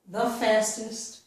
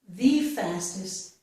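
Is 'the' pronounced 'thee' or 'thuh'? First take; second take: thuh; thee. First: The word 'the' is said with a short 'uh' vowel. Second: The word 'the' is said with a long 'ee' vowel. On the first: Nothing is being emphasized. "normally without stressing anything, I would use a" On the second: The idea is being emphasized. "if I want to stress my ideas, then I would use E"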